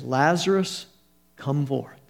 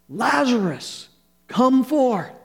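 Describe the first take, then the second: First: It is said at a quiet, ordinary volume. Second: It is said in a loud voice.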